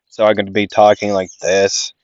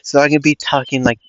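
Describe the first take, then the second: First: Slightly lowered demo voice; switched voice. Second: Said in the usual way. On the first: Shown as a demonstration. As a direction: lightly put on another voice to show the switch. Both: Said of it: "switch my vocal cords around".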